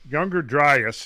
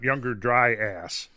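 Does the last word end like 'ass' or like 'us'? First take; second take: us; ass. First: The last word ends with a weak 'us' sound. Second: The last word ends with a full 'ass' sound. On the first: The speaker calls it right. "it's Younger Dryas" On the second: The speaker calls it wrong. "not Younger Dry Ass"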